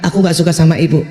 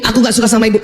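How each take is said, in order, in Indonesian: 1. Suaranya lebih rendah, lebih lembut, dan tenang. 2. Suaranya keras, tinggi, dan kasar. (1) "Udah bener kan? Udah baik kan? Udah pantas gak?" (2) "Suaramu sudah kayak keledai lima"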